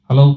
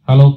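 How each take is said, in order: Both takes have the same delivery.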